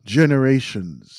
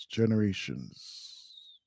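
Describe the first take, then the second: First: "generations," said louder and firmly with a falling close; emphatic. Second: "generations." much softer and slow, a falling murmur; quiet echo. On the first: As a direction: hammer "generations," home. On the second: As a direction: let "generations." sink into a hushed echo. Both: Real, not acted. Repeats word, then echoes it.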